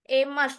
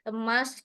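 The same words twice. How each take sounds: First: The first vowel is a clear, full e. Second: The first vowel is a weak, reduced e. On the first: This is how people from Sumatra say it. "kalau orang Sumatera bilang E-nya itu jelas semua tuh" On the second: This is how people from Java say it. "Kalau orang di Jawa tuh emas kena tipe"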